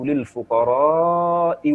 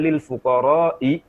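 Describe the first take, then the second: First: The long vowel is held longer than usual. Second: The long vowel is said short, without extra length. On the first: The speaker calls it right. "Beliau panjangkan rohnya lebih dari kadar yang biasa diucapkan" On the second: The speaker calls it wrong. "dia baca lil fuqara'i, ditegur oleh Abdullah bin Mas'ud"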